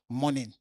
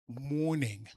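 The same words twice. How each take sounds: First: It is said in the speaker's plain accent. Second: It is said in a posh, put-on accent. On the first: The speaker is not trying to sound refined. "and not morning" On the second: The speaker is trying to sound refined. "I say morning"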